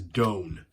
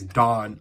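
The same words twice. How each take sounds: First: The name is pronounced the Japanese way. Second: The name is pronounced the common English way. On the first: The speaker calls it right. "I'm going to go off the Japanese pronunciation" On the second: The speaker calls it wrong. "like a lot of people do"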